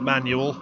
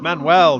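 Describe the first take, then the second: First: The name sounds like the word 'manual'. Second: The name does not sound like 'manual'. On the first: The speaker calls it wrong. "not Manual" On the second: The speaker calls it right. "It's Manuel"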